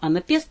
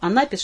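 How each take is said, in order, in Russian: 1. Ударение на третьем слоге. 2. Ударение на втором слоге. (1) "так и на третьем слоге" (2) "ударение правильно можно поставить как на втором"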